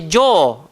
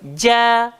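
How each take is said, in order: First: The vowel is thick and rounded. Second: The vowel is thin and open. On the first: The speaker calls it wrong. "Jangan baca jo. Tak betul" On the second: The speaker calls it right. "sifat dia tidak tebal"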